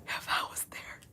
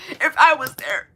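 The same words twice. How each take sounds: First: Breathy whispered If I was there. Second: If I was there pushed up high and louder; high, strained. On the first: Repeating her own line to chat, whispered. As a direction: drop it to a bare whisper. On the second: Repeating her own line, now high and loud. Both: Shown as a demonstration.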